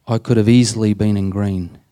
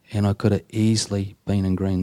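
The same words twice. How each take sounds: First: Said in the usual way. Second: Softer echo. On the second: Shown as a demonstration. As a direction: repeat it softer, letting it sink in.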